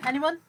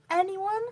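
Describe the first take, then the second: First: ANYONE lifted in a short, moderately raised question; questioning appeal. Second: ANYONE drawn out high, climbing at the end; insistent questioning appeal. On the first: Seller asks viewers about markings, ANYONE as a short appeal. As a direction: ask ANYONE briefly, rising at the end. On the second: Seller gets no answer from viewers, ANYONE as a high, insistent appeal. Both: Real, not acted.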